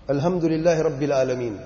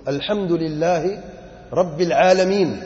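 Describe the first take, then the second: First: الحمدللہ رب العالمین with plain Urdu h and no throaty ع; wrong pronunciation demo. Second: الحمدللہ رب العالمین slowly, with throaty ح and ع; correct Arabic recitation. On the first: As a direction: run through الحمدللہ رب العالمین casually, Urdu-style sounds. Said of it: "اللہ نے ایسے نازل نہیں کیا". (الحمدللہ رب العالمین، ح اور ع کے بغیر، اردو لہجے میں) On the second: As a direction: draw out الحمدللہ رب العالمین, each Arabic letter fully articulated. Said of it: "صحیح پڑھو". (الحمدللہ رب العالمین، ٹھہر ٹھہر کر، صحیح عربی مخارج کے ساتھ) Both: Shown as a demonstration.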